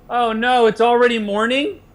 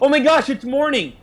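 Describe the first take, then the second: First: It sounds weary and dreading. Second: It sounds eager and excited.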